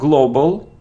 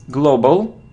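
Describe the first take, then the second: First: The first vowel is not a clear O sound. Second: The first vowel is a clear O sound. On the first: The speaker calls it wrong. "It isn't global" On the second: The speaker calls it right. "it's O, global"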